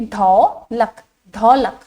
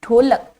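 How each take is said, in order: First: ढोलक said with an open औ, dhaulak; औ sound. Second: ढोलक said with a clear closed ओ, dholak; ओ sound. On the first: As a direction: say ढोलक with the औ matra, wide open au. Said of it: "औ की मात्रा के साथ पढ़ूंगी". (ढोलक को औ की मात्रा से, खुली औ के साथ) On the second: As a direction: say ढोलक with the ओ matra, rounded o. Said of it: "ध्यान से सुनिएगा". (ढोलक को ओ की मात्रा से, बंद ओ के साथ) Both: Shown as a demonstration.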